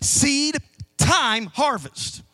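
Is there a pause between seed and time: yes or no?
yes. Seed and time are separated by a pause.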